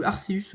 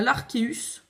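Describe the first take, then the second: First: "Arceus" said with an S sound; soft C in Arceus. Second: "l'Arceus" said with a K sound; hard C in Arceus. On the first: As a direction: pronounce the C of "Arceus" as S, "Arséus". (« Arceus » prononcé avec un son S) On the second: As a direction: pronounce the C of "l'Arceus" as K, "Arkéus". (« l'Arceus » prononcé avec un son K) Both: Shown as a demonstration. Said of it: "vous le prononcez comme vous voulez".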